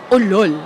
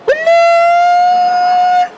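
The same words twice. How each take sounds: First: It sounds like a mocking insult. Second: It sounds like an excited exclamation.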